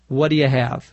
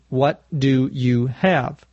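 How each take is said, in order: First: The phrase is said quickly, with words run together. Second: The phrase is said slowly, with each word separate. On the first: "when we say that quickly, it sounds like" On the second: "But slowly"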